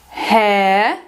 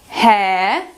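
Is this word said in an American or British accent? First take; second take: British; British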